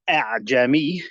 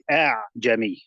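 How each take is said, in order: First: Both glottal stops are pronounced fully and sharply. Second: The second glottal stop is softened, without a closure. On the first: "rather than doing two Hamzas consecutively" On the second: "He made it easier to pronounce"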